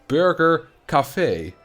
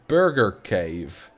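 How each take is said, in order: First: Cave is pronounced with a French sound. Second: Cave is pronounced as a plain English word.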